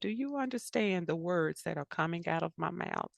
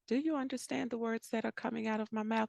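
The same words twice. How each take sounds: First: The question sounds condescending and impatient. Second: The question sounds curious and genuinely open. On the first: The listener is assumed not to understand. The speaker calls it wrong. "you cannot have power in your conversations like this" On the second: The speaker sincerely wants to check understanding. The speaker calls it right. "just seeking that understanding"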